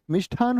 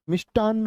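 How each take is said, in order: First: "मिष्ठान" said as mishthaan, breath after the t, single n; "मिष्ठान" with ठ and one n; wrong aspirated ṭh. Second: "मिष्टान्न" said as mishtaann, no breath after t; "मिष्टान्न" with ट and doubled न; correct ṭ and double n. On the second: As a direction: hold the final n of "मिष्टान्न". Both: Shown as a demonstration. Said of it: "जी नहीं, मिष्टान्न होता है".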